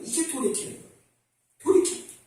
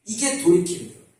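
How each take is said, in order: First: Soft repeat. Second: Said in the usual way. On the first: Shown as a demonstration.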